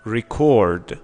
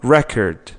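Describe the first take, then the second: First: The stress is on the second syllable. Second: The stress is on the first syllable. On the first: It is used as a verb. "فعل ها استرسشون رو بخش بعدی" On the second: It is used as a noun. "اسم ها استرسشون رو بخش اوله"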